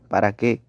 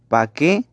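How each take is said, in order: First: The word 'para' is said in full. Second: The word 'para' is shortened to 'pa'. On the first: The speaker calls it right. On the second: The speaker calls it wrong. "palabra que se escriben o pronuncian de forma defectuosa"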